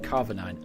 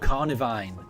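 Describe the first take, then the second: First: The second syllable begins with a V sound. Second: The second syllable begins with an N sound. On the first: The speaker calls it wrong. "Am I saying it wrong?" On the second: The speaker calls it right. "that probably is right"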